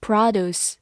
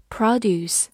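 First: Produce said the American way, PRAH-doos; American accent on produce; American pronunciation. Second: Produce with the stress on PRO, the first syllable. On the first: Teacher giving the American version of produce, in an American accent. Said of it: "美式发音". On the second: Teacher showing the noun stress of produce, stress on the first syllable. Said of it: "重音放在了最前面". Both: Shown as a demonstration.

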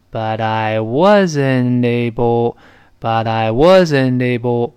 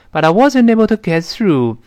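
First: Very slow, drawn-out linked syllables; slowed right down. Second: Said in the usual way. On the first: Shown as a demonstration. Teacher helps those who can't keep up, very slow. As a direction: stretch every syllable smoothly for learners. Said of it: "就慢一点儿呗". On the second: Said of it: "不就好了吗".

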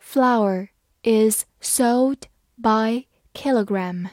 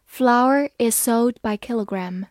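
First: Slow, careful read-aloud; each word drawn out evenly. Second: Said in the usual way. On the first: Shown as a demonstration. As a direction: read it slowly so learners can follow. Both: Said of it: "好，慢慢来读".

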